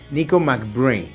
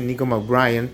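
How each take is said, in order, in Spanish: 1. La última parte suena como la palabra inglesa brain. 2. La última parte se dice con sonidos al estilo español. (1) "es [name] [name]. ¿Y por qué hago esta corrección? Porque viene de Brain" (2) "nos malacostumbramos en algún momento a decirle [name]"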